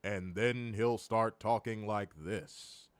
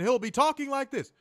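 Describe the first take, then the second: First: Low, slow, hushed office-cubicle voice; Joe Tessitore cubicle voice. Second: High, excited announcer impression; excited Joe Tessitore. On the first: Retold or imitated. Podcaster mocking announcer's sudden switch, low cubicle voice. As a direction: drop down soft and drawn out, mocking an announcer. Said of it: "that fucking office cubicle voice". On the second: Podcaster mocking the announcer's delivery, high and excited. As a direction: push the voice up, mocking an excited commentator. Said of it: "that little cubicle voice that Joe Tessitore does".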